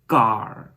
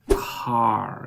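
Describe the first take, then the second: First: The k is said without a puff of air. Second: The k is followed by a puff of air. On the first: The speaker calls it wrong. "You don't say car" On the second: The speaker calls it right. "you say car"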